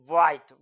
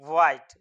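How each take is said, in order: First: The h sound at the start is light. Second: The h sound at the start is light.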